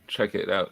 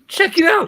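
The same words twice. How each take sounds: First: It is said in his normal voice. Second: It is said in a Shaggy impression.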